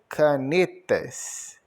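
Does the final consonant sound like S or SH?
S. The word ends with a hissing S sound. "em Minas Gerais, se pronuncia canetas"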